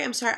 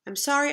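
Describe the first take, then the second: First: Said in the usual way. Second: SORRY lifted up at the end; grudging apology tossed off brightly; rising sorry. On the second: A narrator's reading. Apology repeated differently.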